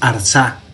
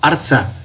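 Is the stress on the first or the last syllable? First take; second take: last; first. First: The stress is on the last syllable. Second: The stress is on the first syllable. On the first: The speaker calls it wrong. "no es Arza" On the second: The speaker calls it right. "sino Arza. El acento está aquí en la primera"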